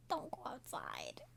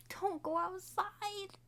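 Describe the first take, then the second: First: Slow whispered Don't go outside. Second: High and slow, DON'T stretched out; high slow plea. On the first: Viewer warning the characters, a slow whisper. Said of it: "repeated as whisper". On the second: Viewer warning the characters, high and slow. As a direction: plead Don't go outside, high and drawn out. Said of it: "warning take, then repeated whispered". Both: Shown as a demonstration.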